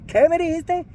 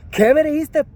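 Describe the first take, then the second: First: Much higher, leaning on me; repeated furious challenge. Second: Much higher and louder, stress on me; furious challenge. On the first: Narrator pressing the thug again, sharp and high. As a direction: demand it again. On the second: Narrator rounding on the thug, furious and loud. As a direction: bark it in his face. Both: Retold or imitated. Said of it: "I said".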